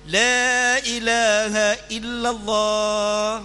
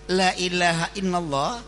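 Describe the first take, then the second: First: The first vowel after the L is held long. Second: The first vowel after the L is cut short. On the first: There is no god but God. The speaker calls it right. "Artinya tiada Tuhan selain Allah" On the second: There truly is a god besides God. The speaker calls it wrong. "lamnya dibaca pendek"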